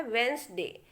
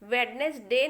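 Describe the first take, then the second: First: वेंसडे as two syllables, D silent; correct pronunciation. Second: वेडनेसडे with every letter sounded, D and middle E spoken; the common wrong way, वेड-नेस-डे; wrong pronunciation. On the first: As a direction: say it वेंस-डे without the D. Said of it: "ये बोला जाता है वेंसडे". (सही उच्चारण वेंसडे, डी silent) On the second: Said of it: "pronunciation ये गलत है". (गलत उच्चारण वेडनेसडे, डी बोलकर) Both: Shown as a demonstration.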